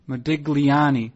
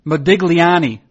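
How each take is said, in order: First: Modigliani said slowly at normal level, each syllable drawn out; a slow relishing Modigliani; slow careful repeat. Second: Modigliani said loud, stress landing on the end, -li-A-ni; a proud loud Modigliani; name announced loud. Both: Shown as a demonstration. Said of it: "How about this last name?".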